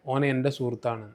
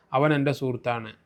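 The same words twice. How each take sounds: First: ഓൻ said in casual Malabar dialect form; colloquial dialect. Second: Said in the usual way. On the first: Shown as a demonstration. Teacher giving the casual spoken version of the sentence, colloquial ഓൻ. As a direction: say ഓൻ the everyday spoken way, not അവൻ. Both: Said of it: "നമ്മൾ സാധാരണ അങ്ങനെ പറയാറുണ്ട്".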